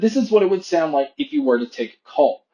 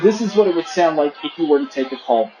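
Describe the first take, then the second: First: The voice is heard without background crowd noise. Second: The voice is heard over background crowd noise.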